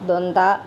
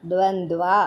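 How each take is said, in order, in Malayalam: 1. വാക്ക് അവസാന 'va' ഇല്ലാതെയാണ് അവസാനിക്കുന്നത്. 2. വാക്ക് വ്യക്തമായ 'va' അക്ഷരത്തോടെയാണ് അവസാനിക്കുന്നത്. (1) "ദ്വന്ദ് എന്നല്ല" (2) "ദ്വന്ദ്വ എന്ന് തന്നെ ഉച്ചരിക്കണം"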